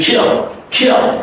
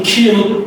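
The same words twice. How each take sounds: First: "kill" quick, glide squeezed before the dark L; fast version. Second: "kill" as a plain "keel", no glide; simple wrong vowel. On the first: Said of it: "you're gonna do it fastly". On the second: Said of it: "It's not simply kill". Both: Shown as a demonstration.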